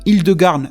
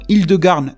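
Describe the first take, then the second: First: The name is said in a French-style way. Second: The name is said in a French-style way.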